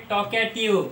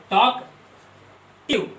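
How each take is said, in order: First: Said in the usual way. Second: talkative drawn out very slowly, syllable by syllable; split into syllables. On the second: Shown as a demonstration. Teacher demonstrating the syllables of the word, very slow. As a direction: break talkative into parts at a crawl. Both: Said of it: "ऐसे दो syllable इस case में भी होंगे".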